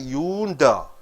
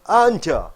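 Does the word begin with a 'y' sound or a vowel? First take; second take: y sound; vowel. First: The word begins with a 'y' sound. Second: The word begins with a plain vowel. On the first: The speaker calls it wrong. "You don't say yunda" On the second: The speaker calls it right. "You say enter"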